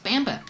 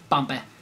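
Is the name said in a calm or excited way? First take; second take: excited; calm. First: The name is said with lively, excited energy. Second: The name is said quietly and calmly.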